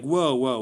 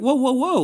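First: Mildly defensive. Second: High, loud mock alarm; startled protest. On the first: Retold or imitated. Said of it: "they were almost feeling defensive, like". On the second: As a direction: throw up your hands in acted alarm. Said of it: "And you're like".

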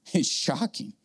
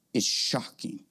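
First: Said in the usual way. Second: Breathy whispered aside. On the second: Shown as a demonstration. Preacher hushing the crowd, whispered. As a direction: hush it like a secret.

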